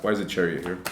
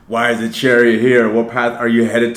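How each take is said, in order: First: Said in the usual way. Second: Asked again, louder and more baffled; louder surprised question. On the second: Real, not acted. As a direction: really wonder aloud why the card turned up. Re-asks the card question louder.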